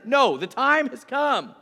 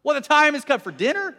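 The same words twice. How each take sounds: First: Loud, slow "the time has come", falling to a close; firm correction. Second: High, loud questioning DINNER with a rising end; puzzled question. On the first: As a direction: declare "the time has come" slowly and with finality. Declaration corrects the misunderstanding. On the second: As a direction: ask incredulously, lifting "dinner" at the end. Crowd misunderstands the declaration, then corrected. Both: Retold or imitated.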